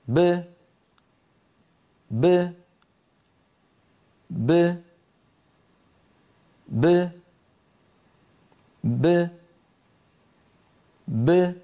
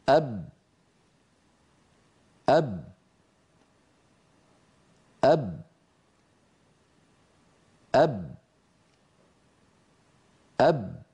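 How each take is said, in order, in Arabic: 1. تُنطق الباء بارتداد خفيف فيه صدى. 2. تنتهي الباء والشفتان مطبقتان. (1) "باء ساكنة مقلقلة تخرج بتباعد الشفتين دون تباعد الفكين" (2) "باء ساكنة غير مقلقلة... تخرج بتصادم الشفتين"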